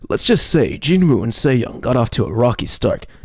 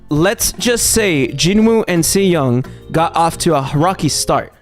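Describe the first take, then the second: First: It is read in a dramatic narrator voice. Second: It is read in her plain, ordinary voice.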